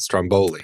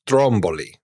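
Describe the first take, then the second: First: The stress falls on the second syllable. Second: The stress falls on the first syllable. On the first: This is how the food is usually called. The speaker calls it wrong. "It's not Stromboli" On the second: This is the island's actual name. The speaker calls it right. "it's Stromboli"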